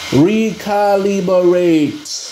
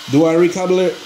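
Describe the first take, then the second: First: Sounding out the word. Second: Said in the usual way. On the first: Real, not acted. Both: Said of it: "what's that word?".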